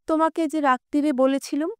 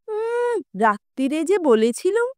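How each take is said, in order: First: It is said in a plain voice. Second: It is said in a mocking, mimicking voice.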